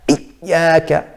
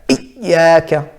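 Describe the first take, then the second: Both takes have the same delivery.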